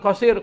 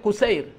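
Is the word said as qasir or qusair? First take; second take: qasir; qusair. First: It is said qasir, with an a sound first. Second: It is said qusair, with a u sound first. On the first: The speaker calls it wrong. "Dibacanya bukan qasir" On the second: The speaker calls it right.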